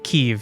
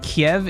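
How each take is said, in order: First: It is said the Ukrainian way. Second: It is said the Russian way. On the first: The speaker calls it right. "I thought it was more of like Kiev" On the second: The speaker calls it wrong. "Kiev is how Russians pronounce it"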